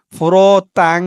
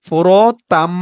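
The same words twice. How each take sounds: First: ফোরতাং with a nasal ng ending; wrong ending. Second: ফোরতাম closing on a humming m; correct ending. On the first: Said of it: "উচ্চারণটা তাং হবে না". (ভুল উচ্চারণ ফোরতাং, শেষে ং) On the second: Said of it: "উচ্চারণটা হবে". (সঠিক উচ্চারণ ফোরতাম, শেষে ম) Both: Shown as a demonstration.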